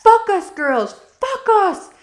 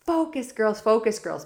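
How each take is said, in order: First: Much higher, louder hammed-up French accent yell; French coach shouting at the team, mock French accent. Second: Coach yelling. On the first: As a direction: mimic a French coach shouting "Focus" so it sounds like "Fuck us". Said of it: "with her ac- accent, it'd be like". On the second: Retold or imitated. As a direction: yell it out higher and louder. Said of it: "LaRouche would be yelling out".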